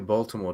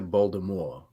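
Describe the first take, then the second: First: The T sound in the middle is pronounced. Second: The T sound in the middle is dropped. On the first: This is how outsiders say it. "People from Baltimore don't say Baltimore" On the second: This is how locals say it. "They say Baltimore. ... do they not pronounce the T?"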